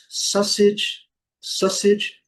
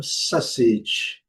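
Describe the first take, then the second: First: Sausage in British English, higher pitched; higher British English rendering of sausage. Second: Sausage in American English, falling. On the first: Teacher contrasts two varieties for learners, British pronunciation. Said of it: "no inglês britânico". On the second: Teacher contrasts two varieties for learners, American pronunciation. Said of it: "e no inglês americano". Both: Shown as a demonstration.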